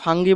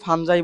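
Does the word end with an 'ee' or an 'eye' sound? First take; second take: ee; eye. First: It has a hard g and ends in 'ee'. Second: It has a soft j and ends in 'eye'. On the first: "এই উচ্চারণটা ফাঙ্গি বললেও হবে" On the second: "ফানজাই বললেও হবে"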